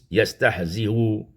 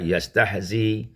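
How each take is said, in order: First: It ends with a softened hamza and faint vowel. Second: It ends on a 'y' glide with no vowel. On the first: "mentashilkan hamzah dengan rum" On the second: "menukarkan hamzah dengan ya yang sukun"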